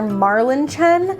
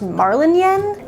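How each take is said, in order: First: The last part starts with a ch sound. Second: The last part starts with a y sound. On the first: "the author calls the main character Marlin Chen" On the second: "it should be pronounced Marlin Yen"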